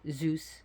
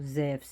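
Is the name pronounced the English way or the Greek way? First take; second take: English; Greek. First: The name is said with an English pronunciation. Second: The name is said with a Greek pronunciation.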